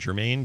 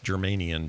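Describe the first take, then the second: First: The name is said without the extra syllable. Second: The name has an extra added syllable. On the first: The speaker calls it right. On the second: The speaker calls it wrong.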